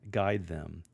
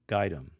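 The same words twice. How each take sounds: First: It is said in a formal, reading tone. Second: It is said in a casual, conversational tone. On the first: The speaker calls it wrong. "rather than say" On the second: The speaker calls it right. "try a conversational tone of"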